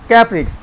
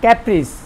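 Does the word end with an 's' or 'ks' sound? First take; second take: ks; s. First: The word ends with a 'ks' sound. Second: The word ends with an 's' sound. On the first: The speaker calls it wrong. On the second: The speaker calls it right.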